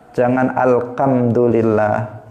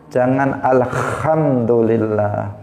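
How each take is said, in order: No difference in how they are said.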